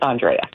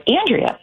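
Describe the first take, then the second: First: Andrea as "ahn-DRAY-uh"; grand version of Andrea, stressed on "DRAY"; lower-pitched Andrea, said "ahn-DRAY-uh"; rich-and-famous pronunciation. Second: Said in the usual way. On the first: Shown as a demonstration. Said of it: "when I become rich and famous". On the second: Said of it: "It's Andrea".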